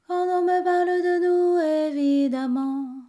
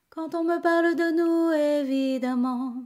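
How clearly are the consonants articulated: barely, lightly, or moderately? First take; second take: barely; moderately. First: The consonants are almost not articulated at all. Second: The consonants are articulated somewhat more clearly. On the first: "on va essayer de pas les prononcer" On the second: "Encore un peu plus"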